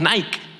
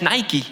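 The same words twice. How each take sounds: First: It is pronounced the Spanish way. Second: It is pronounced the English way. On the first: "y que nosotros decimos Nike" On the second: "que en realidad es Nike en inglés"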